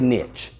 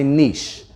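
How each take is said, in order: First: The word rhymes with riches. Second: The word does not rhyme with riches. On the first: "I say niche. ... niches bring riches" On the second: "Some of you might drink your tea like this. You might say niche"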